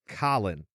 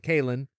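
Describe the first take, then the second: First: The name sounds like Colin. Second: The name does not sound like Colin. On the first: "as Colin" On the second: "as we we say it"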